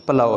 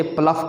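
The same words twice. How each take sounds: First: प्लो ending in an open "ow", no f; correct pronunciation. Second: प्लफ ending in an f, "pluff"; wrong pronunciation. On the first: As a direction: say प्लो as "plau", gh silent. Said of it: "प्लो है". (सही तलफ़्फ़ुज़, प्लो यानी "प्लाउ") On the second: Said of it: "लोग इसे प्लफ पढ़ रहे". (गलत तलफ़्फ़ुज़, प्लफ के आख़िर में "फ़") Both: Shown as a demonstration.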